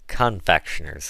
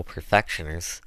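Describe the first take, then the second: First: "Confectioners" said properly, starting with con-; careful correction, "Confectioners" with con- first; corrected pronunciation. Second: "perfectioners" said with per- for con-; confident slip, "perfectioners" starting with per-; mispronounced word. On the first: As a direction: correct it to "Confectioners" in standard speech. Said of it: "'tain't no odds". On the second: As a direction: say "perfectioners" in dialect, in place of confectioners. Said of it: "Confectioners, Chloe". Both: Acted.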